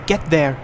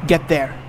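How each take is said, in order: Both takes have the same delivery.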